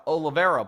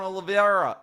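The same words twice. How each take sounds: First: "Oliveira" said as oh-la-VER-a; corrected name. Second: "Oliveira" stumbled as oh-la-vee-AR-a; mispronounced name. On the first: Host fixing fighter's name in an ad, "Oliveira" as oh-la-VER-a. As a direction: say "Oliveira" in four syllables, stress on VER. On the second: Host misreading fighter's name in an ad, "Oliveira" as oh-la-vee-AR-a. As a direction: say "Oliveira" with an extra ee before the stressed AR. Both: Real, not acted. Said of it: "pardon me".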